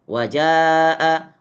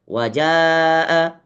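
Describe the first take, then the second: The two takes are said the same way.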